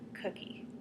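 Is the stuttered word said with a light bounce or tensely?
bounce. The first sound bounces lightly before the word. The speaker calls it right. "We would say it again, but with the bounce"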